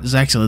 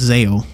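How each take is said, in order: First: The X sound in the middle is pronounced. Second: The X sound in the middle is left silent. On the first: This is the official English pronunciation. "in English, the X is uh, spoken" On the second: This is the Japanese pronunciation. "In Japanese, the X is silent"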